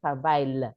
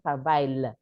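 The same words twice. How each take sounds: First: The double L is sounded like an L. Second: The double L is sounded like an L.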